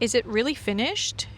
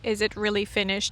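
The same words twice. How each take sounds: First: It is read expressively, with emotion. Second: It is read flatly, without emotion. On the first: The speaker calls it right. "let's do it better" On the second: The speaker calls it wrong. "How did that sound? Not very natural"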